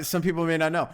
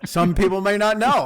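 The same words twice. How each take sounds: First: Said in the usual way. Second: Says it through a laugh; chuckling while speaking. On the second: Real, not acted. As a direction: laugh into the words, amused.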